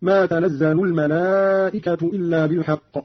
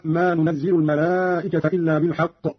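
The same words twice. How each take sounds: First: تنزل as tanazzalu, الملائكة ending in u; Qalun's taa reading. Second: Said in the usual way. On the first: Shown as a demonstration. Teacher shows Qalun's reading, تنزل as tanazzalu, الملائكة nominative. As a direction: open with ta in تنزل, doubled z with a, and الملائكة as al-malaa'ikatu. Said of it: "بالتاء المفتوحة وتشديد الزاي مفتوحة". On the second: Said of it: "وتشديد الزاي مفتوحة".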